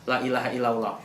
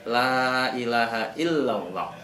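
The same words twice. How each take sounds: First: The vowel of the first 'la' is short. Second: The vowel of the first 'la' is long. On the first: The speaker calls it wrong. "La-nya menjadi pendek" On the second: The speaker calls it right. "Harusnya la-nya panjang"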